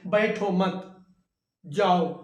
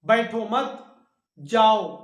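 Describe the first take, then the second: First: There is a pause right after मत. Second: The same.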